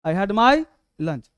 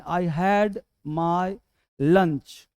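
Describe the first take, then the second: First: "I had my lunch" slow, louder, "my" carries the peak; slow louder repeat leaning on "my"; stress on my. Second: "I had my lunch" said very slowly, word by word; slow dictation. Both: Shown as a demonstration. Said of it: "अक्सर पूछता हूँ बच्चों से मैं".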